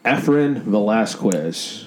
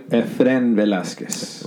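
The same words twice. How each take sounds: First: The name is said with an American accent. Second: The name is said with a Spanish accent. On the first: The speaker is adapting to fit the surroundings. "the American tone, the American accent" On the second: The speaker is keeping their own identity. "It's different"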